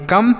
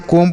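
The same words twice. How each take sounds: First: कम with a short "uh" vowel; correct short vowel. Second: कोम with a long "oh" vowel, like "comb"; misread with long O. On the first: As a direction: read कम to rhyme with "hum". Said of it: "ये होगा इसका सही उच्चारण". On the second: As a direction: wrongly read कोम to rhyme with "home". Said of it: "गलत तरीके से पढ़ेंगे". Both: Shown as a demonstration.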